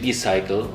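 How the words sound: It is said with an English pronunciation. "English would say bicycle"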